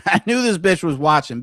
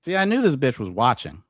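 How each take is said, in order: First: Gloating laugh. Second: Said in the usual way. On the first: Real, not acted.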